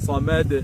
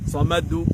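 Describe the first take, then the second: First: The final bounce has no clear vowel color. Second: The final bounce sounds like a u vowel. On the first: The speaker calls it right. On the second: The speaker calls it wrong.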